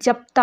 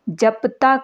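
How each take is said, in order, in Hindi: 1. p और t के बीच कोई स्वर सुनाई नहीं देता। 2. p और t के बीच एक छोटा स्वर सुनाई देता है। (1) "का अब उच्चारण जप्ता हो गया" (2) "कुछ स्थितियों में अक्षरांत अ का भी लोप होने लगा"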